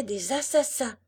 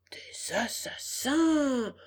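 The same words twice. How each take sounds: First: Said in the usual way. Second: Slow, drawn-out horrified echo; aghast fox. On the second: Acted. Fox echoes Pinocchio's news of assassins, theatrically aghast. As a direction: stretch the word out in hushed-to-swelling disbelief.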